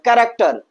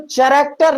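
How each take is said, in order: First: The word begins with a 'k' sound. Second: The word begins with a 'ch' sound. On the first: The speaker calls it right. "तो हम कैरेक्टर बोलेंगे" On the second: The speaker calls it wrong. "चैरेक्टर नहीं पढ़ते हैं हम"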